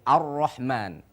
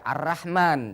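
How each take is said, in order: First: The R sound is heavy and thick. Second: The R sound is light and thin. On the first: The speaker calls it right. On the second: The speaker calls it wrong. "jangan baca"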